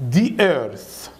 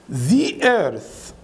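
First: "The earth" as "dee earth", falling; D pronunciation. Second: "The earth" with long buzzed "zee"; full "thee" pronunciation. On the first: Teacher repeats the spoken form, falling "dee earth". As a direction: swap the buzz in "The" for D. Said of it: "بدل ذا وذي بيقولوها دا ودي". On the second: Teacher repeats the textbook form, buzzed "thee earth". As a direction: lengthen a buzzed ee-sound "The". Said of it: "مثال بقى على الكسر". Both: Shown as a demonstration.

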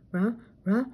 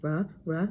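First: Rising dog-voiced sneeze wind-up; building sneeze. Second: Sneeze build-up. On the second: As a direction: start a sneeze, barely. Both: A narrator's reading. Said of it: "Scooby sneezed".

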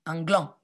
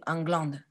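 First: "gland" ending on the nasal vowel, no d; silent final d. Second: "glande" with the final d pronounced; sounded final d. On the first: Teacher giving children the corrected word, "gland" with silent d. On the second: Teacher correcting the word for children, "glande" with a sounded d. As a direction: say "glande" ending on an audible d. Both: Shown as a demonstration. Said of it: "Pas une, un glande, un gland".

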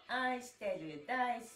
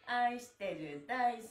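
The two takes are said the same way.

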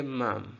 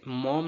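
First: मम with a neutral "uh"; schwa vowel. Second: मॉम with an open O; full O vowel. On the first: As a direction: reduce the O to a schwa in मम. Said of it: "हम पढ़ेंगे मम". (मम में श्वा की आवाज़) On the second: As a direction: sound the O fully in मॉम. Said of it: "मॉम नहीं पढ़ेंगे". (मॉम में पूरा ओ) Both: Shown as a demonstration.

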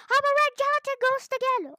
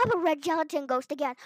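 First: Higher, louder squealing repeat; dismayed squeal. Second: Said in the usual way. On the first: Real, not acted. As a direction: yelp it out in dismay. Turned into ghost, said twice.

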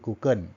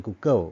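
First: Google ending in a clear n, "กูเกิ้น"; Thai-accented variant. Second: Google ending in an open w-like sound, "กูเกิ้ว"; Thai-accented variant. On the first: Teacher showing students the other accent, Google as "กูเกิ้น". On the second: Teacher showing students one accepted accent, Google as "กูเกิ้ว". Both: Shown as a demonstration. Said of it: "ถ้าได้ยินสำเนียงอย่างนี้ก็อย่าไปแปลกใจ".

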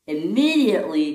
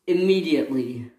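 First: IMMEDIATELY higher and questioning; surprised echo. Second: Said in the usual way. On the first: Acted. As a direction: echo "Immediately" back in mild disbelief. Daisy echoes the demand.

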